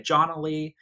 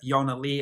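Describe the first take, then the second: First: The name begins with a 'j' sound. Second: The name begins with a 'y' sound. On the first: The speaker calls it wrong. "so that people don't say [name]" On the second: The speaker calls it right. "to pronounce it the way it's supposed to be pronounced in Swedish"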